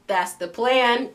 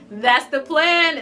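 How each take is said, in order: First: Slow knowing line. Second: Laughing. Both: Shown as a demonstration.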